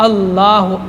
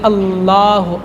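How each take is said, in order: Both takes have the same delivery.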